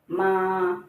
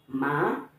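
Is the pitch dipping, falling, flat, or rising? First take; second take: flat; rising. First: The pitch stays level and flat. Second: The pitch rises steadily upward. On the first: "pronounce ma with the first tone" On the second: "pronounce it with the second tone"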